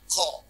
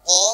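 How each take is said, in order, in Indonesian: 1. Bunyi keluar dengan hembusan napas. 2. Bunyi berat dan bergema, tanpa keluar napas. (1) "nggak boleh dibaca ko" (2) "dibaca dengan tafkhim tebal ko menggema dan tanpa disertai keluarnya nafas"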